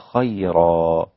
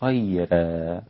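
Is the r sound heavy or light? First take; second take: heavy; light. First: The r sound is heavy and full. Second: The r sound is light and thin.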